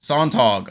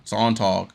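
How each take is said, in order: First: Said in the usual way. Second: A faint German accent on Sontag, sounding like sawn-tawg; a slight German accent on Sontag. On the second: Shown as a demonstration. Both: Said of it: "I gotta get my German accent going".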